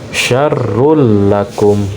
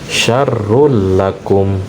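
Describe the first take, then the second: The two takes are said the same way.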